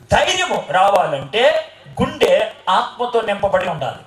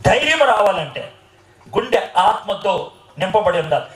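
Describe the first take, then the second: First: Slow, weighty, each word laid down; slow emphatic line. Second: Said in the usual way. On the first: Shown as a demonstration. Preacher to congregation, slow and emphatic. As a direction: drive the point home slowly.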